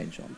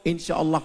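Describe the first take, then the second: First: "insya Allah" breathed almost silently; much softer, "insya Allah" barely voiced; whispered insya Allah. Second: Said in the usual way. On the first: Real, not acted. Repeats as a hushed aside.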